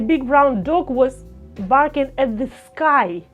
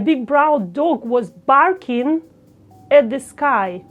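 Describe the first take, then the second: First: The word sky carries the emphasis. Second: The word barking carries the emphasis. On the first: The sky is the important part. "you can make emphasis on the sky" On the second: The dog barking is the important part. "you want to make emphasis on the dog barking"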